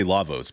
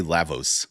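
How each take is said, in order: First: "Lavos" with a broad AH, LAH-vos; own pronunciation. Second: "Lavos" with a short A, LAV-os; other people's pronunciation. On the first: Gamer checking a shared pronunciation, "Lavos" as LAH-vos. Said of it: "that's how I pronounce it". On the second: Gamer citing how others say it, "Lavos" as LAV-os. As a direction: say "Lavos" to rhyme its start with have. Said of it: "I've heard people say". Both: Shown as a demonstration.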